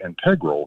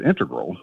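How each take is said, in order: First: Integral said as in-TEG-ral; stress on second syllable. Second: Integral said as IN-te-gral; stress on first syllable. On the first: Retold or imitated. Caller quoting a podcast reporter's pronunciation, integral as in-TEG-ral. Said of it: "one of the reporters one time used the word". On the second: Shown as a demonstration. Caller showing his own usual pronunciation, integral as IN-te-gral. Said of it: "I've always pronounced that word".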